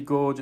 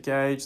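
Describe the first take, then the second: First: The vowel sounds like the one in 'George'. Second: The vowel sounds like the one in 'page'. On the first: The speaker calls it wrong. "It's not a bloody gauge" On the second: The speaker calls it right. "it's a gauge"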